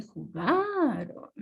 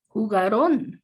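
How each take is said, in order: First: "jugaron" slowly and softer, with stress on "ga"; the proper form, stress on "ga" and "ron" left unstressed; correct "jugaron". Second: "Jugaron" with a wrong accent on "-ron", said louder; the incorrect stress students write, landing hard on "ron"; wrong "jugarón". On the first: A teacher giving students the correct form, "jugaron" stressed on "ga". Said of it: "se dice". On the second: A teacher showing students the error, "Jugaron" stressed wrongly on "ron". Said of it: "no se dice". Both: Shown as a demonstration.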